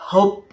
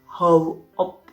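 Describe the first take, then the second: First: It is shortened to a single syllable. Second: It is said as two full syllables. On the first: "tukang parkir biasanya hop" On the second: "aslinya itu how up"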